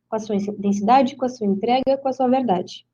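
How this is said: Short, light pauses separate the phrases. The phrases flow together as one idea. "A vírgula vai te dar uma pausa mais leve, uma respirada, né? Aquele meio segundo"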